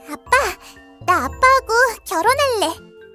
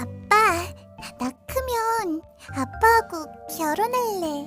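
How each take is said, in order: First: It is said in a bright, cheerful tone. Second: It is said in a shy, sincere tone.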